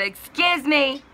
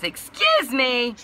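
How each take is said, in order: First: Very high, loud mock indignation; drawn-out, affronted retort, imitating the caller; indignant interruption. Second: High, loud, drawn-out, cracking imitation; voice going out. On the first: Dispatch woman cutting the customer off, mock indignant. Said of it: "she interrupts me and says". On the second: Dispatch woman interrupting, imitated with a cracking voice. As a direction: voice giving out like a boy in puberty. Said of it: "my voice is going out, so I sounded like a boy going through puberty".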